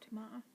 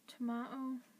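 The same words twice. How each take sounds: First: The word ends with an 'ah' vowel sound. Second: The word ends with an 'oh' vowel sound.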